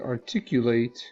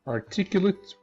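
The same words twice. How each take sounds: First: The last syllable carries a secondary stress. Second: The last syllable carries no stress. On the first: It is the verb. "with secondary stress on the last syllable" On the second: It is the adjective. "the stress on this syllable"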